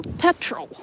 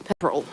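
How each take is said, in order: First: "petrol" with a clear American r, high; own petrol. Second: "petrol" said lower, the Kiwi way. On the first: Vlogger showing how she says "petrol". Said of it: "I say petrol". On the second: Vlogger contrasting a Kiwi "petrol" with hers. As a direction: give "petrol" a New Zealand sound. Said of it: "they will pronounce it differently". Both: Shown as a demonstration.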